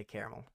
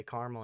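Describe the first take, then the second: First: "caramel" with all three syllables. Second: "caramel" with no middle vowel; two-syllable caramel. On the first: Podcaster describing what he says other days, three-syllable pronunciation. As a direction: say "caramel" as CARE-uh-mel. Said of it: "other days I say caramel". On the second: Podcaster describing what he says some mornings, two-syllable pronunciation. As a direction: say "caramel" as CAR-mul. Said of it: "sometimes I wake up and I say". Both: Shown as a demonstration.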